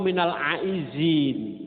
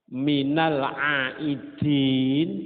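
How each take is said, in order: First: The middle consonant is a z sound. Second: The middle consonant is a d sound. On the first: The speaker calls it wrong. "Kok difasekno minal aizin. Itu malah salah" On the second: The speaker calls it right. "Minal aidin pakai dal"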